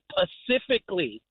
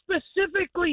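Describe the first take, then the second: First: The word begins with a plain p sound. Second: The word begins with an s sound. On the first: The speaker calls it wrong. "they always say Pacifically" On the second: The speaker calls it right. "no, it's specifically, y'all"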